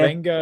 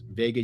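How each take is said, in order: First: The name is said with an n before g. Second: The name is said without an n before g. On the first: "N G is how you pronounce it" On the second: "I thought it was Vega Ioane"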